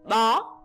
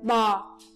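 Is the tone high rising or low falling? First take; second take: high rising; low falling. First: The tone rises high on the syllable. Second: The tone falls low on the syllable. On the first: "Dấu sắc đặt trên âm o" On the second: "Dấu huyền đặt trên âm o"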